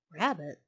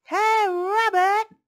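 First: Lower, lightly voiced fox musing; puzzled thought. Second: Loud, high drawn-out call; yelling. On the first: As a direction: wonder it to yourself as the fox. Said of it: "thought the fox". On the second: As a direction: holler it as if from outside the door. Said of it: "someone yelled outside". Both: A narrator's reading.

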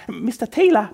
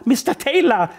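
First: High, eager call to the boss; aufgeregter Ausruf. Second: Much higher and louder second call; lauter Ausruf. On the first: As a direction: blurt out the name eagerly. (aufgeregt herausplatzend) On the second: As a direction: call him again, louder and more urgent. (drängend und laut rufend) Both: Acted. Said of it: "platzte es deshalb sofort aus ihr heraus".

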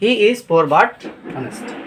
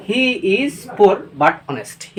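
First: Said in the usual way. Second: "He is poor but honest" read very slowly, word by word; teacher dictating the example; very slow dictation. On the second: Shown as a demonstration. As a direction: dictate it for students to write. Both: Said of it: "উদাহরণের সহিত দেখব।".

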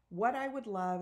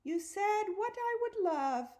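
First: Said in the usual way. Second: Mocking, very high and louder; squeaky-high teasing mimicry; high-pitched imitation. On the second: A narrator's reading. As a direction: mimic someone's high voice, pushed right up. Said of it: "imitating my high-pitched voice".

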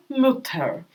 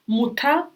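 First: "мютер" with a fronted rounded ü; umlaut ü. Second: "Мута" with a round back u, rising; plain u. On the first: Teacher contrasting Mütter with Mutter. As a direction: say "мютер", lips round, tongue forward. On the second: Teacher contrasting Mutter with Mütter. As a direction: say "Мута" with a clear u. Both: Shown as a demonstration. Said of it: "У переходить на таке ую".

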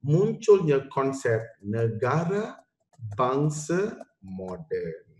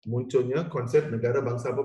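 First: Slow and deliberate, each word weighted; slow key point. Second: Said in the usual way. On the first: Shown as a demonstration. Teacher stressing the most important part to students, slow and deliberate. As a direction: spell out the key idea slowly for the class. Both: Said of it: "here comes the most important part".

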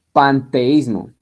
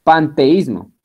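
First: Panteísmo stretched out, very slow, every syllable clear; slow dictation. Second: Said in the usual way. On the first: Shown as a demonstration. Teacher dictating Panteísmo to students, very slow. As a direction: drag out Panteísmo so it can be copied. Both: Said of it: "con tilde en la I".

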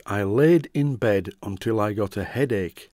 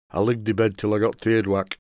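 First: Said in the usual way. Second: Imitating a grandfather's broad Yorkshire dialect; hard-to-understand broad Yorkshire, words run together; broad Yorkshire accent. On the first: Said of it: "I think it means". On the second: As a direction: quote grandad in thick Yorkshire. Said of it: "My grandfather had a really broad Yorkshire accent".

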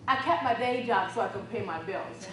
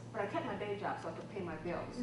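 First: "kept" stressed, louder and deliberate; emphatic repeat. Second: Said in the usual way. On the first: Shown as a demonstration. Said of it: "repeated for emphasis". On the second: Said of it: "repeats with emphasis".

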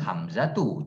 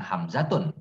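First: "Hamzatu" ending in a bare u; ending without tanwin. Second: "Hamzatun" closed with a final n; wrong tanwin ending. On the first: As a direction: say "Hamzatu" with no final n. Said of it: "Dia harus Hamzatu, jangan Hamzatun". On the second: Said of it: "jangan Hamzatun". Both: Shown as a demonstration.

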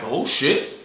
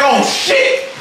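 First: Low, subdued retold reaction; muted, winded acknowledgement; still winded. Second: High, hyped-up retold shriek; squealed astonishment, stretched out; energy suddenly changed. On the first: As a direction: say it low and soft, barely up yet. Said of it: "I'm still winded". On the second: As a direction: explode upward in amazed excitement. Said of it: "my energy done changed".

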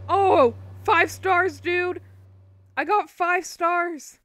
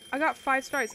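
First: Loud, much higher cheer of delight; excited yell. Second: Said in the usual way. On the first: Real, not acted. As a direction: shout the win out loud, stretching it. Gets five stars in game.

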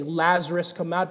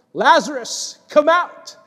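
First: Said in the usual way. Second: Calling out loud and high, come out rising; loud cry. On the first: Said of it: "Jesus had to specifically say". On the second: Acted. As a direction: summon the dead man with a loud cry. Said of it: "he cried out with a loud voice".

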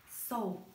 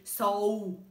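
First: Said in the usual way. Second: "sol" stretched long and loud with a wavering pitch; attempted split, drawn out. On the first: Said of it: "A gente fala apenas uma vez". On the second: Shown as a demonstration. Teacher showing sol cannot be divided, drawn-out word. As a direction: drag out "sol" as if trying to divide it. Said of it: "não tem como dividir".

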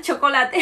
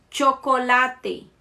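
First: Chocolate with a louder TCH; Spanish CH. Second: Chocolate very slowly, starting with TCH; Spanish CH. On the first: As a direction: say chocolate as tchocolate, a bit louder. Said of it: "a mesma coisa". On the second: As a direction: draw out chocolate, tcho-co-la-te. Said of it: "som de T C H". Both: Shown as a demonstration.

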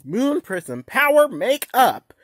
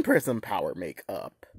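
First: Chanted, slow, louder transformation call; chanted, belt the spell out. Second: Lower, quicker transformation call. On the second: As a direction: drop the voice down low. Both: Shown as a demonstration. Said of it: "two takes".

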